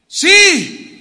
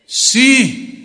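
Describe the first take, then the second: First: It is said very loudly. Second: It is said loudly.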